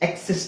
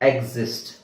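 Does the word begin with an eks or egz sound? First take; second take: eks; egz. First: The word begins with a voiceless eks sound. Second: The word begins with a voiced egz sound. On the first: The speaker calls it wrong. "ಇಲ್ಲಿ ನಾವು ಈ ಎಕ್ಸ್ ಹಾಕಂಗಿಲ್ಲ" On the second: The speaker calls it right. "Same ಇದೆ, ಇ ಜಿ"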